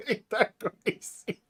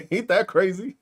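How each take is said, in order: First: "Ain't that crazy?" much softer, slow, through laughter; laughing softly. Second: Said in the usual way. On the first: Real, not acted. Streamer laughs at a critic, soft and slow. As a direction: let "Ain't that crazy?" dissolve into quiet laughter.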